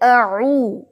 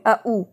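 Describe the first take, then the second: First: The vowels join with a soft 'ain sound. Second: Two vowels are split by glottal catches. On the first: The speaker calls it right. "आइन एक सॉफ्ट है, soft sound के साथ पढ़ेंगे इसे" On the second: The speaker calls it wrong. "जैसे कि आप पढ़ रहे हैं कि दो हमजा पढ़ रहे हैं"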